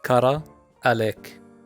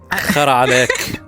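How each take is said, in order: First: It starts with a plain k sound. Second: It starts with a throaty kh sound.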